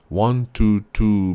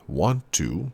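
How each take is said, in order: First: An extra vowel is inserted after want. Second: The words are joined without any extra vowel. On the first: "has a strong inserted syllable" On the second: "instead of hearing want to"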